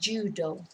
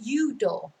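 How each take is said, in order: First: The word begins with a j sound. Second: The word begins without a j sound. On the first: "rather than judo" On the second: "they don't really do the j sounds in uh, Spanish. So el judo, I think they would probably say"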